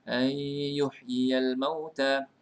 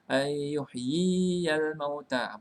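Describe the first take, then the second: First: The ya vowel is held for one beat. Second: The ya vowel is held for two beats. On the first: The speaker calls it right. "Kena baca satu harakat" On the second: The speaker calls it wrong. "Kita bukan baca"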